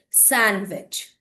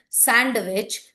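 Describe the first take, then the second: First: One written letter is left silent. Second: Every written letter is sounded aloud. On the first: The speaker calls it right. "you should say" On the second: The speaker calls it wrong. "Don't call it"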